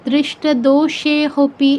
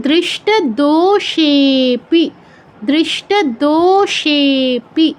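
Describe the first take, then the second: First: "দোষে হপি" slow, with an h before pi; wrong reading with হ. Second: "দোষেপি" very slow, with ষে held extra long; pluta pronunciation. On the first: Teacher showing the forbidden reading, দোষে হপি with audible h. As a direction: sound a separate ho syllable in "হপি". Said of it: "এরকম কেউ বলবো না". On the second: Teacher modelling the third example, দোষেপি slowly drawn out. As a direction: stretch দো long and ষে longer in "দোষেপি", then short pi. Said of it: "এরকম". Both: Shown as a demonstration.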